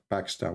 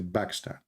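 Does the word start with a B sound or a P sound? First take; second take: P sound; B sound. First: The word starts with a P sound. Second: The word starts with a B sound. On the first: "in Arabic, we don't have P. So we don't say like Pakistan" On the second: "we say Pakistan"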